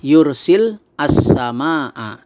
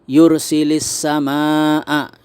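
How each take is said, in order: First: The words are said apart without linking. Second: The words join with an added 'i' vowel.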